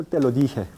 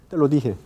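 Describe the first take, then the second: The two takes are said the same way.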